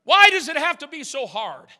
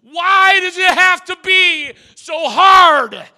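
First: Said in the usual way. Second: Loud, high, slow anguished cry of "Why does it have to be so hard?"; preacher voicing a desperate cry; screamed. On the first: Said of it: "don't you feel that way". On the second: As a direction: scream the question out. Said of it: "screamed it".

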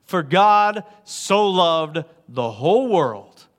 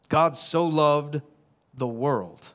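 First: Slow and louder, stress on God; emphatic scripture read. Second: Slow and hushed, each word weighed; slow scripture read. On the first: Preacher proclaiming the verse to everyone, slow and louder. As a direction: declare it slowly and fully this time. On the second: Preacher quoting John to the congregation, slow and hushed. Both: Shown as a demonstration. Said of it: "Not everybody but you".

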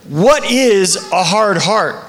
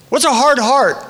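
First: Slow, weighty question with each word spaced. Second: Said in the usual way. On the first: Acted. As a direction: lay the question down slowly and heavily. Pastor repeats key question.

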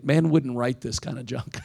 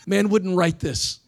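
First: Said in the usual way. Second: Chuckling as you say it again; amused, drawn-out repeat; laughing. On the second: Shown as a demonstration. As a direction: repeat it higher and slower through a laugh.

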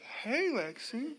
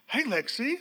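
First: Slow, quiet, anxious greeting; a cautious, soft hey like bad news is coming; soft wary hello to a daughter calling unexpectedly; worried slow hey. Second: Said in the usual way. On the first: Shown as a demonstration. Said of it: "it's like". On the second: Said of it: "You don't say".

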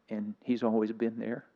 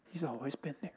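First: Said in the usual way. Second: Choked up, very soft and higher; weepy. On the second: Real, not acted. Preacher moved by God's faithfulness through it all, weepy. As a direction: voice goes small and high, holding back tears. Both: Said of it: "I'm a little weepy this morning".

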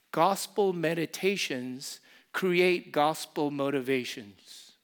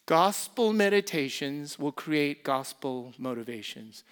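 First: Gospel meditations create gospel motivations, slowly, each word weighted; deliberate teaching cadence; slow emphatic slogan. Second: Said in the usual way. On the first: Shown as a demonstration. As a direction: lay out the motto word by word.

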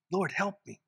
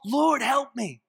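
First: Soft, weary murmur; weary plea. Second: Higher, pressing cry for help; urgent plea. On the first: Preacher showing a weary believer's prayer, soft and tired. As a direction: sound worn out and small. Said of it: "when you're weak and weary". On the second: Preacher voicing a tempted believer, urgent and higher. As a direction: plead before you fall. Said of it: "about to fall". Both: Shown as a demonstration.

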